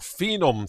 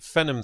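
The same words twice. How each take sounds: First: It is said in an American pronunciation. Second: It is said in a non-American pronunciation.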